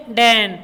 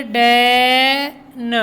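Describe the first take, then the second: First: Said in the usual way. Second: डैन very slow, vowel held, न separate; sounded out. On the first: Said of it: "क्या बोलेंगे?". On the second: Shown as a demonstration. Teacher showing pupils how letters blend, डैन slowly segmented. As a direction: stretch "dae" in डैन, pause, then "nuh". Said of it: "टीईएन को क्या बोलेंगे?".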